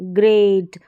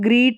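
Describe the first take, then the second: First: The vowel is a long drawn ay sound. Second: The vowel is a long ee sound. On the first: The speaker calls it right. "थोड़ा खींच कर ... ए करके pronounce कर रहे हैं" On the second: The speaker calls it wrong. "अब इसको ग्रीट नहीं पढ़ रहे"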